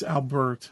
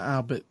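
First: The name is pronounced carefully and fully. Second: The name is pronounced lazily and sloppily. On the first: The speaker calls it right. "It's Albert" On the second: The speaker calls it wrong. "not Albert. What a lazy speaker"

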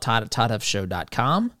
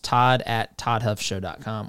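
First: The address is said fast. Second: The address is said more slowly.

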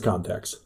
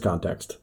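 First: The second T in the word is dropped. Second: The second T in the word is pronounced. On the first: The speaker calls it wrong. "I dropped off the second T for some reason" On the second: The speaker calls it right. "What if I pronounced that word correctly?"

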